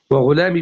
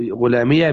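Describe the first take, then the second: First: وغلامي ending in long "ee", no vowel after it; silent ya. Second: غلامي pronounced ghulamiya, ending in "ya"; ya with fatha. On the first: Teacher contrasting two forms for students, وغلامي ending in plain long "-ee". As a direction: close وغلامي on a still "-mee". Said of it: "بالإسكان". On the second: Teacher contrasting two forms for students, غلامي said with voweled "-iya". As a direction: open the final ya of غلامي into "-iya". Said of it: "بالفتح". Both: Shown as a demonstration.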